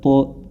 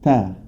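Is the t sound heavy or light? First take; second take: heavy; light. First: The t sound is thick and heavy. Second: The t sound is thin and light. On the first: The speaker calls it wrong. "jangan sampai terbaca mutaqo ta to ta" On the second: The speaker calls it right. "huruf ta-nya tetap ta"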